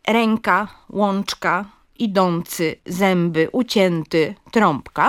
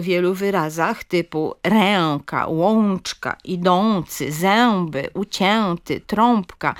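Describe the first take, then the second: First: Ręka, łączka, zęby, trąbka said with a vowel plus m or n; split nasal. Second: Ręka, łączka, zęby, trąbka said with full nasal vowels; literowa, przesadna wymowa nosówek; overcareful nasal vowels. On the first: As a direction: say zęby as zembe and trąbka as trompka. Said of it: "wymówione jako dwie głoski". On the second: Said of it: "literowa wymowa e i o". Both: Shown as a demonstration.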